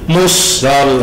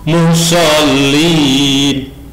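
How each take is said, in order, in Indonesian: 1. Bunyi s dibaca ganda dan panjang. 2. Bunyi s dibaca tunggal dan pendek. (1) "kadang musnya ditasdidkan, ini salah" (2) "shotnya tidak bertasdid"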